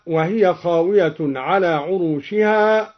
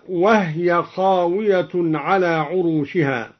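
First: Said in the usual way. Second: "وهي" said wahya, with the ha vowelless; silent vowel on ha. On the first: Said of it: "قرأ الدوري بإسكان الهاء". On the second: Shown as a demonstration. Teacher showing al-Duri's reading, unvowelled ha in "وهي". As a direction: close the ha in "وهي" straight onto the ya. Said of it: "قرأ الدوري بإسكان الهاء هكذا".

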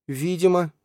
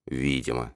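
First: High, lively heroine's ВИДИМО; high-pitched retort. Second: Low, soft, sour Видимо; sour echo. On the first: Alzhana answering Lali's doubts, high-pitched retort. Heroine snaps back in argument. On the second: Lali repeating Alzhana's word, sour. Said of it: "скривился Лали". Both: A narrator's reading.

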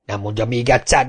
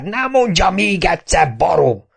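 First: Said in the usual way. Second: High, furious repeat of "nem mondja még egyszer"; mayor losing his temper at Kapa; angry outburst. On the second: A narrator's reading. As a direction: explode on "mondja" the second time.

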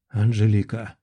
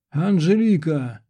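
First: Understated, lower-pitched rasp; hoarse croak. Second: Raised, high-pitched call of a name; desperate cry. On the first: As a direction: croak the name on waking from horror. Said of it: "прохрипел я вслух". (хрипло, пониженным голосом) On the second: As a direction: cry out to someone being dragged away. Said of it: "Я издал нечеловеческий вопль". (отчаянный крик) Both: A narrator's reading.

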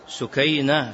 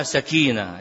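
First: سكينة said as sukeina, diminutive form; diminutive pronunciation. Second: سكينة said as sekina, like calm; old mispronunciation. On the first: Sheikh correcting the name: سكينة as sukeina. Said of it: "بالتصغير الشهابي". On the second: Recalling his student mistake: سكينة as sekina. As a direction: say سكينة as sakina, the word for tranquility. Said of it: "كنت أنطق بها سكينة". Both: Shown as a demonstration.

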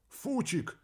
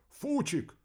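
First: Sharp high yell of a name. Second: High yell of the name again. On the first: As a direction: scream the name in alarm. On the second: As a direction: call out the name in alarm. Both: Acted. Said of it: "заорал радист".

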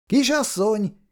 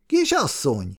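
First: Put-on high call to a girl across the meadow; first high call of Miss. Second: Calling out again. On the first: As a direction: call out to get her attention. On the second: Acted. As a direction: call again as she turns, settling down. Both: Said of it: "Szabó János elkiáltotta magát".

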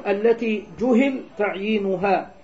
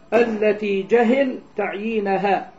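First: جهل said as juhila, u on the j and i on the h; passive reading juhila. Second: جهل said as jahila, open a on the j and i on the h; active reading jahila. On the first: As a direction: read جهل as passive, damma on the jim and kasra on the ha. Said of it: "يجوز أن يقرأ مبنيا للمفعول". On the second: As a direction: read جهل with fatha on the jim and kasra on the ha, slowly. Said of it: "ويجوز أن يقرأ بفتح الجيم جهل وكسر الهاء مبنيا للفاعل". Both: Shown as a demonstration.

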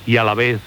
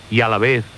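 The two takes are said the same way.

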